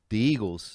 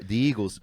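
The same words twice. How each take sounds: First: "the Eagles" with "the" said as "duh"; Delco-style "the Eagles"; Philly pronunciation. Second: "the Eagles" with "the" said as "dee"; Delco-style "the Eagles" again; Philly pronunciation. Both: Shown as a demonstration. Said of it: "they put a D on it".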